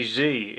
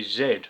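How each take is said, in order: First: Z said the American way as "zee"; Z spoken as "zee" like in the States; Z pronounced "zee" rhyming with "see". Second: Z said the British way as "zed"; Z spoken as "zed" rhyming with "bed"; Z pronounced "zed", the UK letter name. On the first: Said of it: "we say Z". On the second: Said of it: "We don't say Z in this country". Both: Shown as a demonstration.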